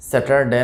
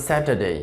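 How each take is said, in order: First: স্যাটারডে with a hard t, sounded r and short final "de"; learner's স্যাটারডে, r pronounced, ending cut to "de"; common mispronunciation. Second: স্যাটারডে as "SAT-uh-day", no r; correct British pronunciation. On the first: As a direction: say স্যাটারডে as "se-tar-de". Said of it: "না হয়". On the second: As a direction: model স্যাটারডে, crisp t, silent r. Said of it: "এটা হবে স্যাটারডে". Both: Shown as a demonstration.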